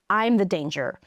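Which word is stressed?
I. The stress falls on the word I. It is an ordinary statement about oneself. "you would emphasize the I"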